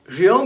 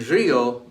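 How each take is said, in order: First: Río said as rio, one syllable landing on the o; stress on final o. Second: Río in two syllables, RI-o, stressed on the i. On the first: Teacher showing the word for laughed, Río as one syllable stressed on o. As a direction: glide Río quickly through i onto a stressed O. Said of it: "Río means laughed". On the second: Teacher showing the word for river, río stressed on the i. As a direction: hold the i of río, then a light o. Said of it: "río means river". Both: Shown as a demonstration.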